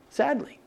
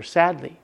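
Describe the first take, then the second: First: Sadly repeated much softer, falling away. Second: Said in the usual way. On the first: Shown as a demonstration. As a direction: let the second sadly fade down to a soft, sad echo.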